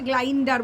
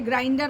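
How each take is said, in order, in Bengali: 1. শব্দটি 'gl' ধ্বনি দিয়ে শুরু হয়। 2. শব্দটি 'gr' ধ্বনি দিয়ে শুরু হয়। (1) "সে গ্লাইন্ডার বলেছে" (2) "সে গ্রাইন্ডার বলতে পারে না"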